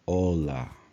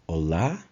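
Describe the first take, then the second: First: The stress is on the first syllable. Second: The stress is on the last syllable. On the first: The speaker calls it wrong. "and not" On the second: The speaker calls it right. "The stress is in the last letter of the word"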